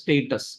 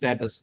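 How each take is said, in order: First: The first vowel sounds like 'ay'. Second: The first vowel sounds like 'ah'. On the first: The speaker calls it right. "It is സ്റ്റേറ്റസ്" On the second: The speaker calls it wrong. "We always say സ്റ്റാറ്റസ്"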